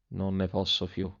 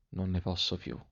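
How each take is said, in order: First: Weary despairing lament, soft. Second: Much softer, dying away, falling tune; fading despair. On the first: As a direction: sigh it out, at the end of his strength. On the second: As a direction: let it fade almost to nothing. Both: A narrator's reading.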